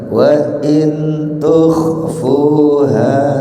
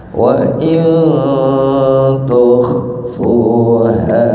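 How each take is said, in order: First: The n is pronounced clearly and fully. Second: The n is hidden with a nasal hum. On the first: The speaker calls it wrong. "umpama saya baca begini" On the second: The speaker calls it right. "Harus disamarkan"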